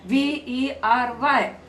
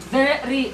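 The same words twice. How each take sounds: First: V E R Y slowly, letter by letter; V E R Y as four slow letter names; spelled letter names. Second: VERY as two distinct beats, ve-ry; "Very" split firmly into ve and ry; two syllables. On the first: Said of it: "There are four letters in the spelling". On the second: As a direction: say "Very" in two clear pulses. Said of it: "How many pulses did you feel?". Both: Shown as a demonstration.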